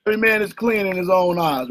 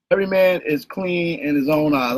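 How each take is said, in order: First: Said in the usual way. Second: A lower put-on voice, lightly done as a Googleite reading the verse; mock Googleite voice. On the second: Teacher mimicking a Googleite quoting scripture, lower put-on voice. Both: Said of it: "I'm being a Googleite".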